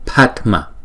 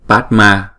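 First: The final vowel is short and reduced. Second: The final vowel is a full, clear long a. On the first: The speaker calls it right. "chúng ta phải đọc là Padma" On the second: The speaker calls it wrong. "Chứ chúng ta không có đọc là Padma, không? Đừng có đọc rõ là chữ A"

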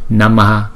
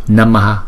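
The two takes are said the same way.

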